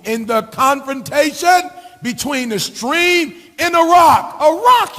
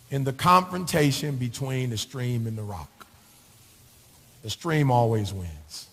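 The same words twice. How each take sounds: First: Building to a shout. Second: Softer and lower, slow and thoughtful; quiet, reflective. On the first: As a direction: build from steady to a preacher's shout. Same saying preached loud again. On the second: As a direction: say it low, like sharing a secret truth. Quiet reflective take of the saying. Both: Acted.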